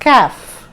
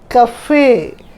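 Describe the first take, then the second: First: It is one syllable with a silent final e. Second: It is two syllables with a pronounced final e. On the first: The speaker calls it wrong. "you don't pronounce it as caf" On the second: The speaker calls it right. "You pronounce it as cafe"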